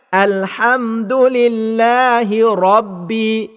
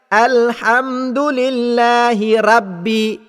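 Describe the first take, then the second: First: The R in 'rabbi' sounds thick and full. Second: The R in 'rabbi' sounds thin and light. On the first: The speaker calls it right. "Sepatutnya bacaan itu dibaca" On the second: The speaker calls it wrong. "bacaan yang salahnya"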